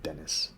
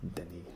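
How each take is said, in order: First: The name is said like English Dennis. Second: The name is said in a French way. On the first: The speaker calls it wrong. "it's not Dennis" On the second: The speaker calls it right. "it's Denis, right?"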